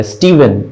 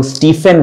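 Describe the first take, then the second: First: स्टीवन with a V sound; correct pronunciation. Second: स्टीफन with an F sound; common mispronunciation. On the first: Teacher repeating the new reading of the name, V in स्टीवन. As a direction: voice the middle of स्टीवन as "v". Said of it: "वी sound आता है". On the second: Teacher quoting what many people say, F in स्टीफन. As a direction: make the middle of स्टीफन an unvoiced "f". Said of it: "बहुत से लोग स्टीफन कहते हैं". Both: Shown as a demonstration.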